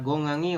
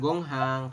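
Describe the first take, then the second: First: The middle h sound is dropped. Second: The middle h sound is pronounced. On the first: The speaker calls it right. "Silakan diisi jawabannya seperti ini" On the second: The speaker calls it wrong. "kok dibacanya bukan gonghang?"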